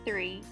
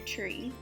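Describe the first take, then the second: First: The word begins with a th sound. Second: The word begins with a plain t sound. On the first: "instead of three" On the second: "The T H becomes a T"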